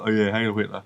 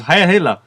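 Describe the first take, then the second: First: Low, soft, offhand mock reply; imitated British driver. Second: Raised-pitch mock soldier's salute; imitated Nazi. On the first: British driver answering the Nazi guard, low offhand salute. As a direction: play along half-heartedly, low and quiet. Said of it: "the British guy that you always go". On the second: Game's Nazi guard checking papers, mock salute voice. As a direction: mimic a guard giving the salute. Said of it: "this Nazi's talking".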